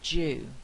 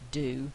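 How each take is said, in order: First: The word begins with a j sound. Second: The word begins with a d sound. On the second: "in American English, it's going to be do more likely"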